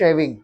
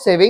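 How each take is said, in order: First: SHAVING begun on a clear sh, falling. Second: SAVING begun on a plain s. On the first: Teacher correcting the class, clear sh sound. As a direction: say "shaving" with sh, not s. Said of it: "this is shaving". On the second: Teacher showing students' mistake for shaving, s sound. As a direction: say "saving" with s, not sh. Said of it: "This is not saving". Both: Shown as a demonstration.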